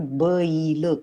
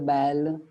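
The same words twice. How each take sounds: First: The vowel glides from 'a' to 'i'. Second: The vowel is a single steady sound. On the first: The speaker calls it right. "ऐचा उच्चार अई असा होतो" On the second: The speaker calls it wrong. "Hindi भाषेच्या प्रभावामुळे"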